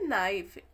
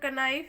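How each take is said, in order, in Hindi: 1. यह शब्द 'n' ध्वनि से शुरू होता है। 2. यह शब्द 'k' ध्वनि से शुरू होता है। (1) "यहाँ पे के साइलेंट होता है, इसको हम ओनली पढ़ते हैं नाइफ" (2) "लेकिन यह कनाइफ न तो किनीफ, दोनों में गलत है।"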